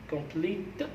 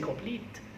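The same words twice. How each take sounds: First: An extra vowel sound follows the final t. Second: The word ends cleanly on the t sound. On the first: The speaker calls it wrong. "you don't say complete" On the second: The speaker calls it right. "you say complete. It means you are finishing the word, the verb with the T"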